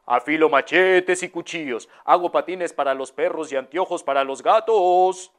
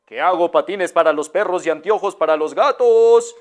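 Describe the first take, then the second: First: Lightly voiced hawker crying his wares; a hint of a peddler calling out; street vendor's call. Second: Vendor repeats his call, louder; repeated louder. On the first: Street vendor calls his trade down the road, lightly voiced. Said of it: "que iba en la calle que decía". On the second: Acted. Vendor repeats his cry louder for the lady. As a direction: say it again for someone who didn't hear. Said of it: "¿Qué, qué?".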